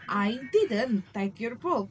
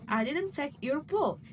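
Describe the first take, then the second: First: The word take carries the main stress. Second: The word book carries the main stress. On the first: The action itself is denied. "is to denying the action" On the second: Something else was taken. "implying you took something else"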